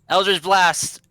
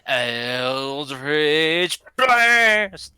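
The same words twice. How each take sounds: First: It is said in his normal voice. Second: It is said in a Goku impression.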